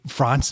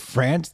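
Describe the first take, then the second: First: France is said with a French-style pronunciation. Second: France is said with an American pronunciation. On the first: The speaker calls it right. "wouldn't it be France then" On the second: The speaker calls it wrong. "instead of France"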